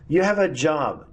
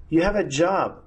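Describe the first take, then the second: No difference in how they are said.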